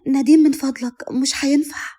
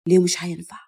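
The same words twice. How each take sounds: First: A higher-pitched, lightly voiced woman's plea; light, high voice of a reluctant wife; hurried plea. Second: Low-pitched man's voice, rising question; low, questioning husband. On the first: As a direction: plead politely to stop, pitched up. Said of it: "فقالت بسرعة". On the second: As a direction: challenge the refusal in a lowered voice. Husband questions her refusal. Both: A narrator's reading.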